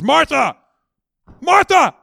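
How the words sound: The name is said sharply, like a rebuke. He is rebuking her. The speaker calls it wrong. "some of us would read this next chapter or this next thought in this way"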